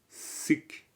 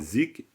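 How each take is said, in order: First: The word begins with a hissing s sound. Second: The word begins with a buzzing z sound. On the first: This is how some Tibetans say it. The speaker calls it right. "certains Tibétains diront sik" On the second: This is how French speakers tend to say it. The speaker calls it wrong. "moi je dis zik"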